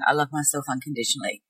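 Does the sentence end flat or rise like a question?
flat. It is low and flat, with no rise. The speaker does not believe it at all. "with their voice quite low"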